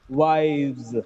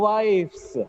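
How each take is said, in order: First: The word ends with a z sound. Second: The word ends with an s sound. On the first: The speaker calls it right. "it gets z sound at the end" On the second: The speaker calls it wrong. "It's not wives"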